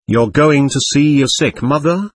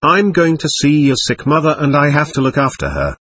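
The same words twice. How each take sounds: First: "You're going to see your sick mother?" rising to a question at the end; questioning echo. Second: Said in the usual way. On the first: A narrator's reading. Newcomer checking the woman's answer, questioning echo rising on "mother".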